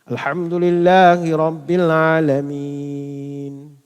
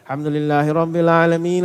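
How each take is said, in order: First: It is recited slowly and calmly. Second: It is recited quickly and hurriedly.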